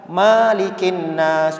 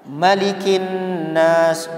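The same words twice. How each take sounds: First: The first vowel 'ma' is long. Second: The first vowel 'ma' is short. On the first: The speaker calls it wrong. "bukan malikin nas" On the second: The speaker calls it right. "Tapi kalau surah An-Nas ini dia pendek ya"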